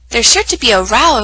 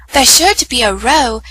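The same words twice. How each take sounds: First: "row" rhyming with "now"; "row" like "cow". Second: "row" rhyming with "go"; "row" like "roe". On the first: Lucy's warning reread, "row" said to rhyme with "cow". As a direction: say "row" with an ow sound, as in quarrel. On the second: Lucy's warning misread, "row" said like "roe". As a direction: say "row" with a long o, as in rowing. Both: Acted. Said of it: "oh wait".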